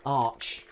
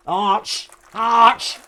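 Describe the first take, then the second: First: Said in the usual way. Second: "Arch" rising into a loud sneeze; posh sneeze. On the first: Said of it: "then you say Arch". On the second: Shown as a demonstration. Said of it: "like a posh sneeze".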